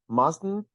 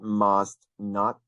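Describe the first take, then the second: First: It is said as one contracted word. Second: It is said as two full words. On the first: "this contraction here" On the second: "That must not"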